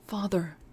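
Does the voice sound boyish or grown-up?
grown-up. It is said in a grown-up voice.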